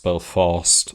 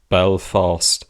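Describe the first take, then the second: First: The stress is on the second syllable. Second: The stress is on the first syllable. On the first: The speaker calls it right. "pronounced on the second syllable" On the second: The speaker calls it wrong. "and not"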